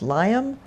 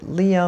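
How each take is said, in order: First: The first vowel sounds like 'lie'. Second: The first vowel sounds like 'lee'. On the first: "like Linus the Lionhearted" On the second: "like Liam Neeson"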